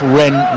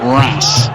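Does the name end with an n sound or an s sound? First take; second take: n sound; s sound. First: The name ends with an n sound. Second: The name ends with an s sound. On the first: The speaker calls it right. "That's Rennes" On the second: The speaker calls it wrong. "not Ras"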